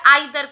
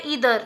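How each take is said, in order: First: Either said "eye-thuh" in a British accent. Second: Either said "ee-thuh", short, in an American accent. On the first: Teacher showing the British either as "eye-thuh". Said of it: "British में का pronounce कैसे किया जाता है". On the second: Teacher showing the American either as "ee-thuh". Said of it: "America में कैसे pronounce किया जाता है". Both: Shown as a demonstration.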